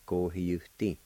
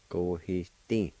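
First: "Go, he, you, di" with a clear "you" syllable; U pronounced out. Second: "Go, he, di" with no "you" syllable; silent U. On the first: Teacher showing the other okay way, "Go, he, you, di" with U sounded. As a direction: say the full "you" before "di". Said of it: "if you pronounce it out". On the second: Teacher showing fidelity the silent way, "Go, he, di" without U. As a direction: drop the U, only a slight Y between "he" and "di". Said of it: "which is silent U like this". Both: Shown as a demonstration.

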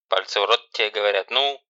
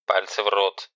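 First: Louder, pushing command; loud, impatient bark; insistent command. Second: Louder barked order; sharp, loud command. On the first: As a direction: repeat the order harder. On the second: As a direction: command like a drill sergeant. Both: Acted. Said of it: "командным голосом".

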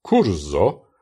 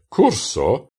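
First: "curso" with a buzzing voiced S, like kurzo. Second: "curso" with a sharp hissed S, like kurso; voiceless S in curso. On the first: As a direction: Esperanto "curso" with a voiced S as in German Rose. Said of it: "während das stimmhafte curso". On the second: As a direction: say "curso" with an unvoiced S. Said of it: "Das stimmlose curso". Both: Shown as a demonstration.

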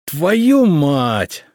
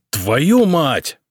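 First: Loud growling curse, pitched up; growled curse. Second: Loud angry curse, pitch up; yell. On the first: Emperor growls a curse at the boyar's answer, furious. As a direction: roar the curse in fury. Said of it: "зарычал Самослав". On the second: Emperor yells a curse at the newspaper, loud. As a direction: burst out cursing at the paper. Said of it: "Самослав заорал так". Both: A narrator's reading.

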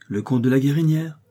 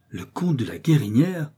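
First: Said in the usual way. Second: Répéter le nom avec une légère surprise; les frères reprennent le nom, incrédules; s'écrier surpris. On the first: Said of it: "Les deux frères sursautèrent". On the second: A narrator's reading. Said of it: "s'écrièrent-ils". (légère surprise incrédule)

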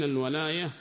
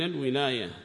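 First: الولاية said with an open a on the first letter, walaya; walaya with fatha. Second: الولاية said with an i on the first letter, wilaya; wilaya with kasra. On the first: Teacher contrasts the two readings for students, الولاية as walaya. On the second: Teacher contrasts the two readings for students, الولاية as wilaya. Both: Shown as a demonstration. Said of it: "بالفتح وبالكسر".

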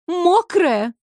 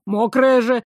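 First: High, drawn-out mocking Мокрая with falling end; sarcastic singsong. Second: Said in the usual way. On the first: A narrator's reading. Water mocking Fire's word, sarcastic singsong. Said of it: "с сарказмом пропела вода". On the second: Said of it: "Fire teasing Water".

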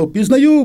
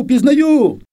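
First: High, loud cry of recognition; excited cry. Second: High, loud repeat, falling at the end; excited cry. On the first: Girl recognizes the returning soldier, high loud joyful cry. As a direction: burst out high and loud with joy. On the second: Girl calls back to the man in the tree, high loud joyful cry. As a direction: cry it out again, high and loud, and let it fall. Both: Retold or imitated. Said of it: "Я закричала".

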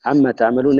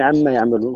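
First: تعملون said with a clear ta sound; the word تعملون voiced with initial ta. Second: يعملون said with a clear ya sound; the word يعملون voiced with initial ya. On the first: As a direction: read تعملون with ta at the start, the second-person reading. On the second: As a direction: read يعملون with ya at the start, the reading with al-ghayb. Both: Shown as a demonstration. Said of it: "يعني بالياء".

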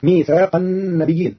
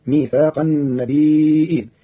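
First: Said in the usual way. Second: "النبيين" said slowly as an-nabi'in, light ya then a hamza with i; النبيين بالهمز. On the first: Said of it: "قرأ قالون كلمة". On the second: Shown as a demonstration. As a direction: stop on the hamza inside "النبيين". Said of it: "بإسكان الياء مع تخفيفها وهمز مكسور".

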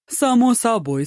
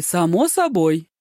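First: Light breezy "Само собой" pitched high; carefree, higher first take. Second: Drawn-out easy "само собой!"; carefree, slower repeat. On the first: Po Kai brushing off Ma Joong, high carefree reply. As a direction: toss it off high and easy. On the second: Po Kai brushing off Ma Joong, slow carefree repeat. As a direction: stretch the repeat lazily. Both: A narrator's reading. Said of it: "беззаботно отозвался".

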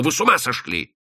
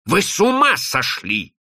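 First: Hoarse exclamation. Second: Higher, more forceful outburst; pitched-up, heated outburst; outraged exclamation. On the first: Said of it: "повторил хрипло". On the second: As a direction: cry it out in disbelief. Repeats it in outrage. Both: Acted.

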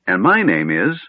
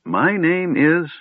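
First: Begins an introduction, then stalls; trailing into a pause. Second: High, slow, searching for the name; puzzled pause. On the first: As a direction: start introducing yourself and leave it hanging. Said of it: "the old magician paused". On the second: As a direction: drag it out as you try to remember. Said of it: "his brow furrowed". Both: A narrator's reading.

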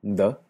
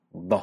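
First: D, una d normal. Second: D enfática, con la lengua retraída. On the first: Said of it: "Tiene una D normal". (D sin enfatizar) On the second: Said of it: "y una D enfática". (D velarizada) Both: Shown as a demonstration.

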